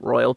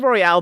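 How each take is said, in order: First: The word ends with an English 'al' sound. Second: The word ends with a French-style 'ale' sound. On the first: This is the technically correct pronunciation. The speaker calls it right. "so it is Port Royal technically" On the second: This is the speaker's habitual pronunciation. The speaker calls it wrong. "I say Royale"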